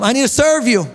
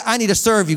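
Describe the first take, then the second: First: Louder repeat. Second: Said in the usual way. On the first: Shown as a demonstration. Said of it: "Tell him". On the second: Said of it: "Look at your neighbor and say".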